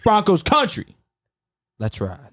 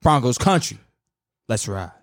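First: Russell Wilson catchphrase take. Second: Low-key, lower take on the catchphrase; Russell Wilson catchphrase take. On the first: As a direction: pitch up the team name, sink on the send-off. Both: Shown as a demonstration. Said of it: "I'm doing two of them".

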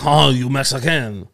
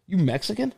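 First: Mock French stranger. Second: Higher mock-blunt question, a touch of a Rhode Island guy. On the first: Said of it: "And he was like".

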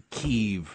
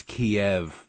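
First: "Kyiv" said as one syllable, KEEV. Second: "Kiev" said in two syllables, kee-EV. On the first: Guest citing the changed name, "Kyiv" as KEEV. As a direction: say "Kyiv" to rhyme with sleeve. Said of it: "it's not Kyiv". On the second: Guest preferring the old name, "Kiev" as kee-EV. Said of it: "it's Kiev". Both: Shown as a demonstration.

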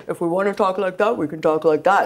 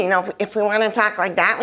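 First: A quick silly talking voice; playfully distort your voice; funny put-on voice. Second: Said in the usual way. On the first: Shown as a demonstration. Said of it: "Hey, Shania, don't do that".

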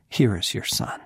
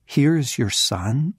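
First: Said in the usual way. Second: Amazed question, pitched up; incredulous. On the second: Retold or imitated. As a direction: echo it as if it cannot be believed. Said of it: "you have got to be kidding me".

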